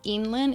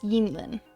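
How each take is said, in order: First: The name starts with no Y sound at all. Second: The name starts with a soft, gentle Y sound. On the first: The speaker calls it wrong. "It's not Yinlin" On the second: The speaker calls it right. "It's just a really gentle Y"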